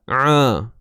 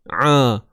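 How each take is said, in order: First: The sound is squeezed in the middle throat. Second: The sound is squeezed in the middle throat.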